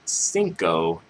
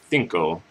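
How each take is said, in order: First: The c is said like an s. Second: The c is said like a th. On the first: "instead of" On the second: "with like a um, T H sound with like a th"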